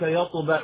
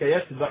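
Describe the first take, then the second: First: يطبع said with a heavy, emphatic ط; teacher demonstrates يطبع with a thick, back ط; correct emphatic taa. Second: يتبع said with a thin, light ت instead of ط; teacher mimics the mistake يتبع with a plain ت; wrong light taa. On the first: Teacher shows students the proper emphatic ط in يطبع. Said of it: "بالطاء". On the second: Teacher imitates a student's error with a light ت. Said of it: "هذا لحن جلي". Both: Shown as a demonstration.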